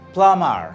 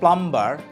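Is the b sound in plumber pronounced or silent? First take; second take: silent; pronounced. First: The b sound is left silent. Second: The b sound is pronounced. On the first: The speaker calls it right. "It is silent B" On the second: The speaker calls it wrong. "not plumber"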